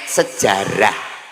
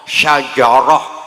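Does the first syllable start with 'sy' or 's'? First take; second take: s; sy. First: The word begins with a plain 's' sound. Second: The word begins with a 'sh' sound, Arabic style. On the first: This is the easier local form. "ya wis dijoko enake sejarah" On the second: This is the original Arabic form.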